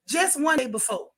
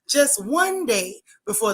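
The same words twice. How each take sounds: First: It is said in a casual everyday voice. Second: It is said in a serious news-anchor voice.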